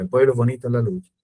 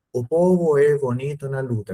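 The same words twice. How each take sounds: First: Said in the usual way. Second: Lee "O povo es bonito en la lucha" con pronunciación portuguesa, "povo" marcado; lectura en portugués. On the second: Shown as a demonstration. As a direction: como alumno que lee despacio en portugués. (lectura en voz alta, pronunciación portuguesa de "povo") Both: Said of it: "las personas ya comenzaban a leer".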